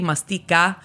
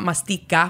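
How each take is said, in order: First: The middle consonant is a softer, breathier sound. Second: The middle consonant is a hard K sound. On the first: The speaker calls it right. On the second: The speaker calls it wrong.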